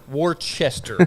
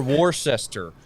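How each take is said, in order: First: Worcester said as "wor-CHESS-ter"; Worcester spelled out by ear as "WOR-chester"; sounded-out place name. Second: Worcester said as "wor-SESS-ter"; Worcester in three spelled-out syllables, "wor-ses-ter"; alternative pronunciation. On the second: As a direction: say Worcester with an S sound, like "war-sester". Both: Shown as a demonstration. Fumbling alternative pronunciations of place name.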